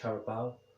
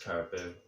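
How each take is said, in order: First: The name ends with a 'bow' sound, like 'cow'. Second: The name ends with a 'boo' sound, like 'zoo'. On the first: The speaker calls it right. "something like Carabao" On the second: The speaker calls it wrong. "I think I'm pronouncing it wrong, to me it's Caribou"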